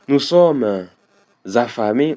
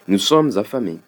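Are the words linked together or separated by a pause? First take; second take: paused; linked. First: A pause breaks the words, with no liaison. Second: The words run together quickly with liaison. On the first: The speaker calls it wrong. "je ne peux pas dire" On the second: The speaker calls it right. "coller et utiliser une certaine vitesse"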